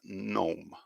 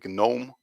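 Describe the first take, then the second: First: The word starts with an n sound. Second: The word starts with a hard g sound. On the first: The speaker calls it right. "but actually it's gnome" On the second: The speaker calls it wrong. "some people see this word and they automatically say gnome or something like that"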